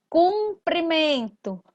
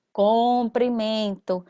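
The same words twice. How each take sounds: First: Cumprimento said slowly with "cum", kuprimento; slow careful reading. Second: Cumprimento said slowly as "com", koprimento; slow careful reading. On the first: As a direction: stretch cumprimento, first vowel a clear u. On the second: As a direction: stretch cumprimento, first vowel an o like comprimento. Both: Shown as a demonstration. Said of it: "teacher contrasts paronym pronunciations".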